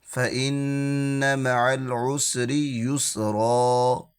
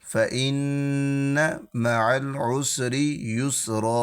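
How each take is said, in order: The two takes are said the same way.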